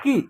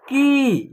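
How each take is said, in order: First: की with a brief i, not held; short vowel. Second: की held long on the ee; long vowel. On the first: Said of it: "simple तरीके से हो रहा है". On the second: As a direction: stretch out the ī of की. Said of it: "खींच करके उच्चारण हो रहा है". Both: Shown as a demonstration.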